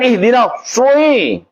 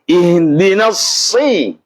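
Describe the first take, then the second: First: The vowel after s has lip rounding. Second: The vowel after s is a plain i. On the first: The speaker calls it wrong. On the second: The speaker calls it right.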